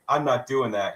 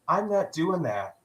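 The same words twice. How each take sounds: First: It is said loudly and forcefully. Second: It is said softly and quietly. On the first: The refusal is firm and confrontational. "He didn't say it with his chest" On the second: The refusal is mild and non-confrontational. "He said it with his inside voice"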